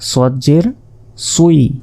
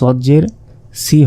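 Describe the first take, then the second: First: The vowel sounds like ui. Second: The vowel is a plain i. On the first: The speaker calls it right. "এগুলোর উচ্চারণগুলো হচ্ছে সজ্জের সুই" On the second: The speaker calls it wrong. "সজ্জের সি হবে না"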